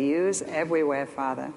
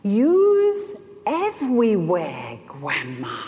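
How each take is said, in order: First: Softer, sinking to a hushed Father; reverent, quiet prayer. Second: Put-on a two-year-old marveling up at his grandma; toddler's voice. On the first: Shown as a demonstration. Child of God looking up to heaven, hushed and reverent. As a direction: say it up to heaven, in awe. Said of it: "you can look to heaven and say". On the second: Grandson marveling at grandma, in a slow small-child voice. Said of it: "and he said".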